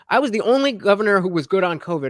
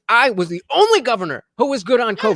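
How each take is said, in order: First: It is said in a flat, monotone voice. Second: It is said with lively, punctuated emphasis. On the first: The point is rushed past without weight. The speaker calls it wrong. "His voice was very monotone and flat" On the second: The point is made to sink in. The speaker calls it right. "punctuate his points"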